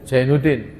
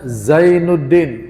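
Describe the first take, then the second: First: The name starts with a j sound. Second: The name starts with a z sound. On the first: This is how people often read the name. The speaker calls it wrong. "tapi dibacanya seringnya apa? ... Menjadi jim" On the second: This is the original form of the name. The speaker calls it right.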